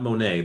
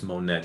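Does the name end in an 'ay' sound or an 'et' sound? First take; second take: ay; et. First: The name ends in an open 'ay' vowel. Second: The name ends in an 'et' sound. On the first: The speaker calls it wrong. "not Monet" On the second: The speaker calls it right. "but it's Monette"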